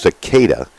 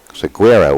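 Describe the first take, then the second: First: The surname sounds like the insect 'cicada'. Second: The surname sounds like 'see-GAIR-uh'. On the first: This is how the family says the name. The speaker calls it right. "it's Cicada" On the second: This is how the name had been said before the correction. The speaker calls it wrong. "we were calling him"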